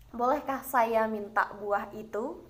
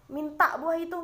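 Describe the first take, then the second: First: Gentle, slow, courteous ask; polite request. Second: Blunt, curt command with a raised pitch; a terse, impolite request; curt demand. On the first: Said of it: "terdengar jauh lebih lembut atau lebih santun". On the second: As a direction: bark it out like an order, no courtesy. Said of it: "kurang santun bahasanya". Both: Shown as a demonstration.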